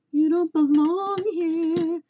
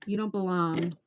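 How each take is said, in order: First: High, slow, louder mock scold; put-on scolding voice pushed high and slow. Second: Said in the usual way. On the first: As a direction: scold the hooks like naughty kids in a put-on voice.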